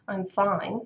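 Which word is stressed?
fine. The stress is on "fine".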